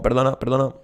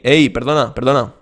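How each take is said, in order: First: The pitch stays fairly level throughout. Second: The pitch goes down across the phrase.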